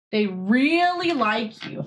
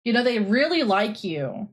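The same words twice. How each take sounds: First: Slow, coaxing cat-talk. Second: Said in the usual way. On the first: Real, not acted. Coaxing the cat to come say hi, slow and gentle. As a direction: draw out really gently to the cat. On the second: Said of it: "repeated to cat".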